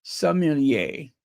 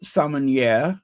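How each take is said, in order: First: "sommelier" said slowly as "som-el-YAY"; masculine French form. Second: "sommelier" said as "som-en-YEHR", open ending; feminine French form. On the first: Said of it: "and the masculine". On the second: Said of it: "the feminine pronunciation is". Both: Shown as a demonstration.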